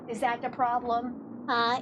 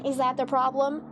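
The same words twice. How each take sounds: First: Soothing pet talk. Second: Said in the usual way. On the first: Real, not acted. Soothing dog about delivery man.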